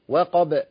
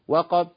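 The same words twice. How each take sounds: First: The final b is released with a bouncing echo. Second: The final b is cut off with no bounce. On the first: The speaker calls it right. "والباء لازم اعمل لها هزه كده" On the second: The speaker calls it wrong. "ما ينفعش اقول ايه؟ ... فين الباء؟ وقعت"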